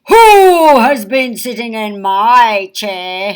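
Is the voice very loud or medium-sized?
very loud. It is said in a very loud voice.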